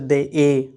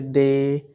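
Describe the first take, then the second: First: The vowel is broken into two separate sounds. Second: The vowel glides smoothly in one go. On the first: The speaker calls it wrong. "We don't say they a" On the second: The speaker calls it right. "but we say they"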